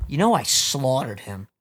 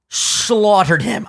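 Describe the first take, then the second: First: Said in the usual way. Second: Slaughtered drawn out very slowly, gloating; stress on slaughtered. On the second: Shown as a demonstration. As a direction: stretch out Slaughtered, savoring it. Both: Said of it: "I have to brag a little bit".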